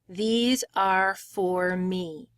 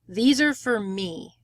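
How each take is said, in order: First: Each word is said separately with small breaks. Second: The words blend together with no breaks. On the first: The speaker calls it wrong. "we don't say words nice and separated that way" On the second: The speaker calls it right. "the first two words become almost like one word"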